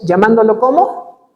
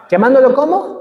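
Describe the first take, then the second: First: Said in the usual way. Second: Laughing call-out. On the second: Shown as a demonstration. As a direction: prompt the crowd to answer, laughing.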